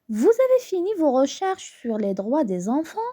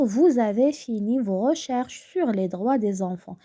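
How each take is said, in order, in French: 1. La voix monte à la fin. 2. La voix descend à la fin.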